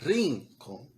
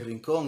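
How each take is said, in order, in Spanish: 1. El acento está en la primera sílaba. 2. El acento está en la última sílaba. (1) "Ahí la pronuncié con el acento en la I, donde no va" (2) "acento en la O"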